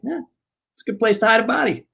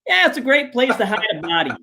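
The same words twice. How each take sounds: First: Fast, higher, casual toss-off; quick deadpan blurt. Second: Quick, higher, casual blurt; deadpan blurt. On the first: [name] quoting Mike to his face, fast deadpan. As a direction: rattle it off like nothing. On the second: Mike answering the reporter, quick deadpan blurt. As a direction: toss it off without thinking. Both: Retold or imitated.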